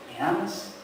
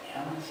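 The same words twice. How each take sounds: First: Said in the usual way. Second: "¿Me amas?" repeated much softer, almost under the breath; hushed repeat. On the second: Shown as a demonstration. Pastor repeats Christ's question to each listener, hushed. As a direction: let the question sink in, barely voiced. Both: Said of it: "Hágase esa pregunta".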